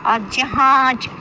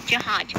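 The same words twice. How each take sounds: First: जहाज stretched slowly, both ज sounds clear; drawn-out jahaaj. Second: जहाज said short and low; quick jahaaj. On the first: Teacher shows the class how to say जहाज. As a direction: linger on जहाज, tongue to the palate. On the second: Teacher repeats जहाज for students. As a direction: say जहाज briefly, tongue on the palate. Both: Shown as a demonstration. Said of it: "जब जीभ तालू में लगती है".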